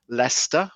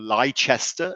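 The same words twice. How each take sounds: First: It is said with a British accent. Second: It is said with an American accent.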